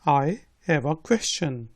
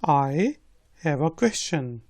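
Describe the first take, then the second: Both takes have the same delivery.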